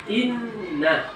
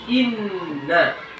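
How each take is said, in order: Both takes have the same delivery.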